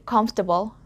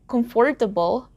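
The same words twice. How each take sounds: First: A middle vowel sound is dropped from the word. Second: Every vowel sound in the word is pronounced. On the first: "native speakers just say comfortable" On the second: "instead of saying comfortable"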